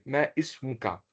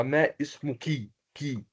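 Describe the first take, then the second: First: "ismuka" ending on an open "ka"; final fatha sound. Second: "ismuki" ending on an "ee" vowel; final kasra sound. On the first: Teacher shows the form for a man, "ismuka" ending in an open "a". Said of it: "je peux ouvrir ma bouche un peu". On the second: Teacher shows the form for a woman, "ismuki" ending in "kee". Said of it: "je peux le prononcer comme cela". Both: Shown as a demonstration.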